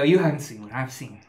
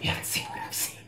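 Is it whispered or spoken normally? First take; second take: normally; whispered. First: It is spoken in a normal voice. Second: It is spoken in a whisper.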